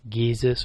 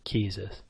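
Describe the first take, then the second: First: The word starts with a voiced G sound. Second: The word starts with a voiceless K sound.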